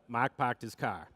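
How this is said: It is said with Worcester R-dropping.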